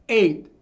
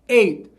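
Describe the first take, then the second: The two takes are said the same way.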